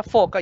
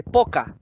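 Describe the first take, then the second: First: Said in the usual way. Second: "poca" con P en lugar de la F de "foca"; error de oclusivización. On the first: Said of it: "le muestras la foca". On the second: Retold or imitated. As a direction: imita el error infantil "poca" por "foca". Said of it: "te dice poca". ("poca" con oclusiva inicial)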